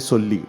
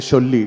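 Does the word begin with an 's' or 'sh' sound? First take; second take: s; sh. First: The word begins with an 's' sound. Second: The word begins with an 'sh' sound. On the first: The speaker calls it right. "you say Solli" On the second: The speaker calls it wrong. "don't say Sholli ... the wrong Shah"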